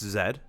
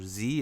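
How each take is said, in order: First: The letter is said the British way, zed. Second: The letter is said the American way, zee.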